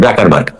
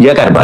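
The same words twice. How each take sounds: First: জাকারবার্গ said with a plain open "ja", ja-kar-barg; জাকারবার্গ the common Zuckerberg reading, open "jaa" start; rejected pronunciation. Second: জ্যাকারবার্গ said with a front "jya" like "jack", jya-kar-barg; জ্যাকারবার্গ pronounced Jyackerberg with the a of "cat"; claimed correct pronunciation. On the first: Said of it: "not জাকারবার্গ". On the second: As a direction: say জ্যাকারবার্গ as "Jyacker-berg", the first vowel as in "jack". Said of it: "actual উচ্চারণ হচ্ছে জ্যাকারবার্গ". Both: Shown as a demonstration.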